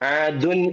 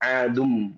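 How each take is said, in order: First: The word ends with an n sound. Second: The word ends with an m sound. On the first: The speaker calls it wrong. "ആദുൻ എന്ന് പറയാതെ" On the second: The speaker calls it right.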